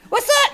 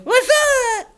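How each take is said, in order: First: High, loud "What's up?" in the dragon voice; the puppet yelling "What's up?" back; squeaky puppet what's up. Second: Said in the usual way. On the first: Acted. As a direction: dragon shouting the greeting. Grork repeats it, excited.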